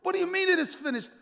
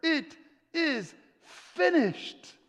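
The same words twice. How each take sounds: First: High, rushed disbelieving question; incredulous disciples. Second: High, slow, word-by-word cry; dramatic cry. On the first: Disciples questioning Jesus' last words, incredulous. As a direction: fire it back in disbelief. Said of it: "the disciples are like". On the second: Preacher voicing Jesus' last words on the cross, slow cry. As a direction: cry it out slowly, pausing between words. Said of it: "then he cries these words". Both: Acted.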